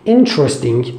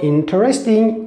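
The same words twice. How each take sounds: First: One syllable is dropped, making it shorter. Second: Every syllable of the word is pronounced. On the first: The speaker calls it right. "we say interesting" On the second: The speaker calls it wrong. "Say instead of interesting"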